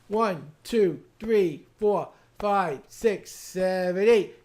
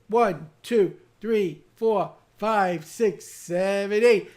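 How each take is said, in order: The two takes are said the same way.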